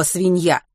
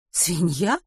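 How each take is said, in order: First: Said in the usual way. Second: Asking it back, rising in doubt; puzzled question. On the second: Acted. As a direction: repeat the word as a puzzled question. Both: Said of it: "переспросила Рут".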